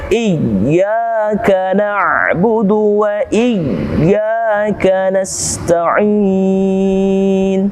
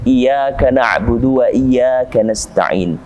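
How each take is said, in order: First: The doubled y is pressed firmly and held. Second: The doubled y is pressed lightly and thinly. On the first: The speaker calls it right. "Ada penekanan di situ, dua harokat" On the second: The speaker calls it wrong. "Ini kurang tebal, kurang ditekan"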